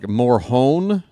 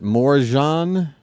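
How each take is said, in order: First: The middle consonant is an H sound. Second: The middle consonant is an English J sound.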